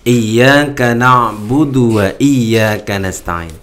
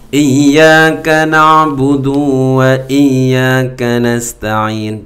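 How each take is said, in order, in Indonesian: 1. Vokal akhir dari na'budu itu pendek. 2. Vokal akhir dari na'budu dipanjangkan.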